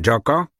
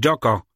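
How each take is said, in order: First: Calling out for the missing chimp, Joko higher and rising; loud call. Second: Loud call. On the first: (głośne wołanie, Joko z intonacją rosnącą) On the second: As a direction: call Joko with the tune falling at the end. (głośne wołanie, Joko z intonacją opadającą) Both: A narrator's reading. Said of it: "głośno zawołał".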